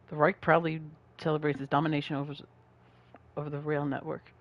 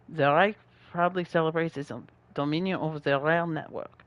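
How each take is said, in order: First: It is read in the speaker's plain accent. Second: It is read in an exaggerated French accent.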